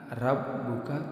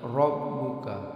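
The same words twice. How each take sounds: First: The r sound is light and thin. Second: The r sound is heavy and thick. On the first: The speaker calls it wrong. "bukan rabbuka" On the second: The speaker calls it right. "tapi rabbuka"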